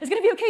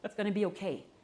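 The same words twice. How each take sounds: First: It is spoken quickly and in a rush. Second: It is spoken slowly and calmly. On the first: The speaker is panicking too. The speaker calls it wrong. "You don't go" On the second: The speaker is present and soothing. The speaker calls it right. "We slow down"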